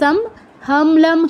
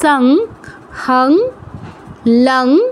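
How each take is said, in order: First: Each syllable ends in a closed m sound. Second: Each syllable ends in a nasal ng sound. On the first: "সব জায়গায় যদি আমরা ম করি" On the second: "অনুসার নিজের মতো উচ্চারণ হবে"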